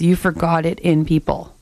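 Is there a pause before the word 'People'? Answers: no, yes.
no. There is no pause before the word 'People'.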